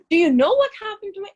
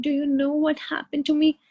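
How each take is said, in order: First: Higher, louder, fast and dramatic; dramatic complaining. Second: Said in the usual way. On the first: Shown as a demonstration. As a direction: rush it out like a self-pitying drama queen. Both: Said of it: "ऐसे नहीं बोलते".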